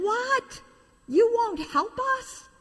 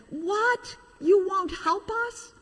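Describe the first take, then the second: First: Very high indignant cry; shocked toys. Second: High disbelieving cry, much higher; shocked toys. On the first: Toys shocked a second time, very high indignant cry. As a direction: squeak out the disbelief. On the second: Toys stunned by the engine's refusal, high shocked cry. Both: Acted.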